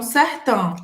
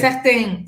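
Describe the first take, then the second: First: The vowel sounds open and less nasal. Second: The vowel sounds more closed and nasal. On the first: This is how speakers from France say it. "os franceses falam certain" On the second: This is how a speaker from Quebec says it. "É um pouco mais nasal, mais fechado esse som"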